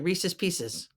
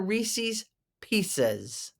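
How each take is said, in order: First: The phrase is said quickly and run together. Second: The phrase is said slowly with each word clear. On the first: "say them really quick" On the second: "But these are Reese's Pieces"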